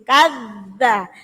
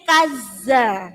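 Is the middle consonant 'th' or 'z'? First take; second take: th; z. First: The middle consonant is a 'th' with the tongue bitten. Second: The middle consonant is a plain 'z' sound. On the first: The speaker calls it right. "Ditekan sambil digigit" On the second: The speaker calls it wrong. "Kalau nggak digigit bunyinya jadi kaza"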